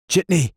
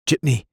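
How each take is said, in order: First: Higher, louder second call; frantic shout. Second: Calling out. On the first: Desperate man hailing the Ford again, higher frantic yell. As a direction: yell it as the car draws near. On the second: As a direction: shout to flag the car down. Hailing a cab in a panic. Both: Acted.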